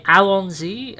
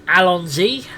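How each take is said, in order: First: Allons-y said the French way, al-on-ZEE with a nasal on; French pronunciation. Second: Alonzi said with a hard Z, as in English; mispronounced Allons-y. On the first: Shown as a demonstration. Streamer correcting the AI, Allons-y with French vowels. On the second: Real, not acted. Streamer calls out the French phrase badly, loud anglicised Alonzi. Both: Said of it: "Allons-y is actually French for let's go".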